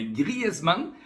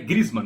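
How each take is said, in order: First: The name has a French pronunciation. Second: The name has a non-French pronunciation. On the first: The speaker calls it right. "é assim que se pronuncia" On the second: The speaker calls it wrong. "não é Griezmann"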